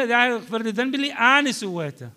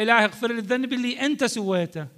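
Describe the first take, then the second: First: أنا hit high in a quick raised prayer; fast plea leaning on أنا; stress on أنا. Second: أنت hit high in a quick prayer; fast, raised prayer leaning on أنت; stress on أنت. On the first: Teacher acts out the right meaning. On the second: Teacher acts out the wrong meaning. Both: Shown as a demonstration. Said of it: "مرة تقول له".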